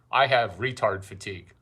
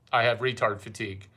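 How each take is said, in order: Both takes have the same delivery.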